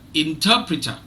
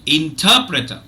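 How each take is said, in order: First: The unstressed syllables are reduced much more strongly. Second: The unstressed syllables are only lightly reduced. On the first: "let me weaken it even more" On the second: "the other three syllables, one, three, and four, are are weak"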